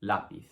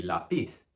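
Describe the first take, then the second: First: Lápiz stressed as LA-piz. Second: Lápiz wrongly stressed as la-PIZ; stress on final syllable. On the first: Teacher showing what the tilde does, lápiz as LA-piz. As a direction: hit the first syllable of lápiz, LA. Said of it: "you have to stress the A". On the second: Teacher showing the rule without the accent mark, lápiz as la-PIZ. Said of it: "so it should be lápiz". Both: Shown as a demonstration.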